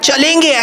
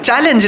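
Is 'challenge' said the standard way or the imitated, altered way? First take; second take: imitated; standard. First: The word is said with an altered, mimicked pronunciation. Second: The word is said with its usual pronunciation. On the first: The speaker calls it wrong. "he used to pronounce it as chalenge" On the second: The speaker calls it right. "How will you pronounce that? Challenge"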